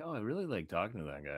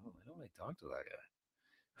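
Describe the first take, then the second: First: Said in the usual way. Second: Much softer, muttering the reversal; muttered reversal. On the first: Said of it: "I'm like". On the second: Retold or imitated. He flips on a friend, softer sour mutter. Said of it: "And I'm like".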